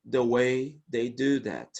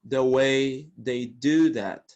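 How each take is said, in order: Both takes have the same delivery.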